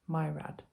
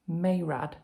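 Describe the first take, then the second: First: The first syllable sounds like 'my'. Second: The first syllable sounds like 'may'. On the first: This is how the audiobook says it. "the narrator saying Myrad" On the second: This is how it was read before. "I was saying Mayrad"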